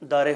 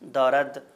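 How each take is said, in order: First: The word ends with a vowel sound. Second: The word ends with a d sound.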